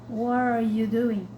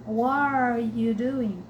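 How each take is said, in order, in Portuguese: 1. As palavras se juntam em um bloco só. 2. As palavras se juntam em um bloco só.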